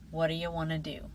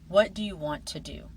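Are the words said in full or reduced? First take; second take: reduced; full. First: Weak vowels and blended sounds shorten the words. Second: Every word is said fully and separately. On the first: "Now listen again" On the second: "Listen to another example"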